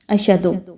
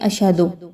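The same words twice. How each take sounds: First: The middle h sound is left out. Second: The same.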